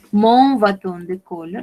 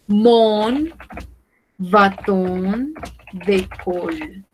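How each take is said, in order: First: Said in the usual way. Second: "mon", "bâton", "de colle" split by pauses; word by word. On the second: Shown as a demonstration. Teacher models French for learners, word by word. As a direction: slowly separate "mon bâton de colle" into chunks.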